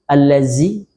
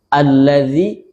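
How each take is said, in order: First: The consonant before the end is a lightly hissed z. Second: The consonant before the end is a voiced th. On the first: The speaker calls it wrong. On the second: The speaker calls it right.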